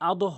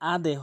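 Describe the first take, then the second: First: The final bounce has an upward, o-like sound. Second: The final bounce has a downward, e-like sound. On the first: The speaker calls it wrong. "আদো হবে না" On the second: The speaker calls it right. "এখানে দাল রয়েছে তাই এখানে আদে হবে"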